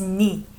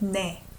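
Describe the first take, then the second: First: The vowel sounds like 'ee'. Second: The vowel sounds like 'eh'. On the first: The speaker calls it right. "you might sing as 니" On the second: The speaker calls it wrong. "we don't say 내 for you"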